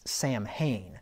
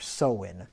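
First: Every letter is sounded out, including m and h. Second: Some letters are not sounded as written. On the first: The speaker calls it wrong. "if you try to read it phonetically, you'd think it would be pronounced Samhain" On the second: The speaker calls it right. "So it's Samhain or Samhain is how that's pronounced"

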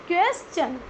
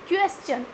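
Both takes have the same delivery.

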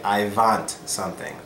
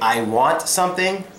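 First: The W sound in want is altered. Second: The word want starts with a clear W sound. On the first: The speaker calls it wrong. "they usually say" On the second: The speaker calls it right. "if they want to say"

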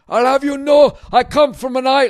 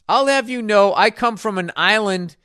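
First: It is said in an attempted Scottish accent. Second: It is said in the speaker's normal accent.

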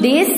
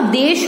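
First: The word ends with a plain s sound. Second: The word ends with an sh sound. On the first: The speaker calls it wrong. "देश नहीं होता" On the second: The speaker calls it right. "ये श से शक्कर वाला"

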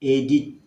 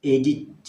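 Both takes have the same delivery.

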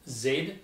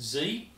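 First: The letter is said as zed, Australian style. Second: The letter is said as zee, American style.

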